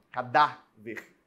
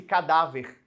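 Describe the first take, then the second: First: "cadáver" slowly split, "dá" held; stress on DÁ. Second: Said in the usual way. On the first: Shown as a demonstration. Teacher showing the strongest syllable, stressed "dá" in "cadáver". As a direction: lean on "dá" in "cadáver", then detach "ver". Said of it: "a sílaba da, ela é a mais forte".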